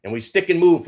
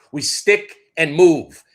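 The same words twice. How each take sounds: First: Said in the usual way. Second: "We stick and move" lent et martelé, "move" appuyé; martèle chaque mot, "move" en dernier; stick and move punched. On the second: Acted. Repeats the motto, punched.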